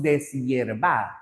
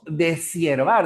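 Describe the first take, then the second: First: Deshiervar as des-YER-var; correct syllable split. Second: Deshiervar as de-SIER-var; wrong syllable split. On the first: Teacher showing how we say it, des-yervar. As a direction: close DES on S, then a Y sound in deshiervar. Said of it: "decimos deshiervar". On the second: Teacher showing what we don't say, de-siervar. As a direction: run S into IER in deshiervar. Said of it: "No decimos deshiervar". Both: Shown as a demonstration.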